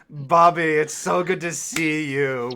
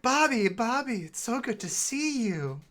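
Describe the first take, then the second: First: The voice is gruffer and rougher. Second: The voice is smooth, not gruff.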